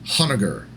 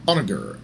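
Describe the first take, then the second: First: The name begins with an audible H sound. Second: The name begins with a vowel, no H. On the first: "I'll probably pronounce it Honoghr" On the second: "the H is supposed to be silent"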